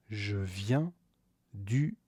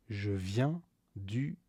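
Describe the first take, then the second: No difference in how they are said.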